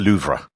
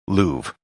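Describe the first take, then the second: First: It is pronounced with French sounds. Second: It is pronounced with English sounds. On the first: "In French, the name would be pronounced" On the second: "the most standard English pronunciation"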